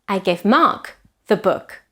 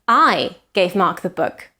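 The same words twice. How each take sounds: First: The stress is on the word Mark. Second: The stress is on the word I.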